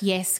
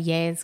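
First: The vowel sounds like the 'e' in 'bed'. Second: The vowel sounds like the 'a' in 'jazz'. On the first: The speaker calls it right. "I mispronounce Yes" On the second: The speaker calls it wrong. "and say Yaz Queen"

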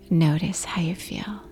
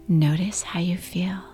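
The two takes are said the same way.

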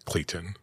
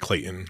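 First: The middle T sound is clearly pronounced. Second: The middle T sound is dropped or swallowed. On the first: Others may say it this way. "but you can say Clayton" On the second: This is how the name's owner says it. "If I say my name, I say Clayton"

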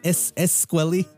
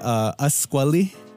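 First: The first vowel is an E sound. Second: The first vowel is an A sound. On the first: "They say it with the E sound. So it'll be like Esquali" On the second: "they don't say it with the A sound"

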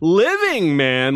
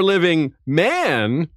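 First: The stress falls on the word living. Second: The stress falls on the word man. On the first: It excludes the living but not the dead. "like John, who isn't living" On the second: It excludes men but not women. "Like a woman?"

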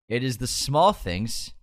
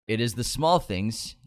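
The two takes are said the same way.

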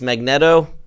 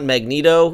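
First: The second syllable has a short e vowel. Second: The second syllable has a long ee vowel. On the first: The speaker calls it right. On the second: The speaker calls it wrong.

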